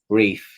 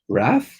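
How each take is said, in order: First: The vowel is long, rhyming with 'faith'. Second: The vowel is short, rhyming with 'bath'. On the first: This is the speaker's own pronunciation. "I pronounce it as" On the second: This is how other people say it. "people pronounce it as Wrath"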